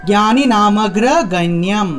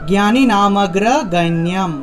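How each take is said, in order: The two takes are said the same way.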